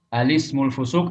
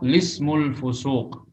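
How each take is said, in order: First: It starts with a vowel before the l. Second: It starts directly with the l sound. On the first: "bi itsbati hamzati al-ta'rif" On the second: "wa hadfuha"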